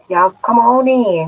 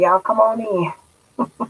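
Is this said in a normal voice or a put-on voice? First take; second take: normal; put-on. First: It is said in the speaker's normal voice. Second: It is said in a put-on imitating voice.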